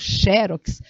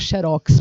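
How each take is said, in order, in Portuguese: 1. A tônica está na primeira sílaba. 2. A tônica está na última sílaba. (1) "aqui deveria haver um acento, porque diz a regra que se a palavra é paroxítona" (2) "algumas pessoas poderiam ter dificuldade de pronunciar xerox"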